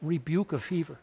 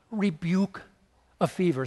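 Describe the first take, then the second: First: "Rebuke a fever" said softer, stress on "rebuke"; hushed repeat. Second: "Rebuke" drawn out with a rise, a pause, then "a fever"; slow savoring stress. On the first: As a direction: murmur "Rebuke a fever" in awe. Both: Shown as a demonstration. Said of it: "Think of that".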